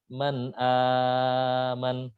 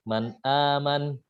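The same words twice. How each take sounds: First: The lengthened vowel is held for a long time. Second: The lengthened vowel is held for a short time. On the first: "enam harokat" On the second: "dibaca dua harokat"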